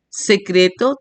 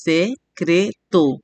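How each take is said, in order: First: Said in the usual way. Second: SE-CRE-TO, slowly in three beats; split into syllables. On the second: Shown as a demonstration. Teacher counting three syllables, syllable by syllable. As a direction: say "Se-cre-to" one drawn-out syllable at a time. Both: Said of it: "tres sílabas".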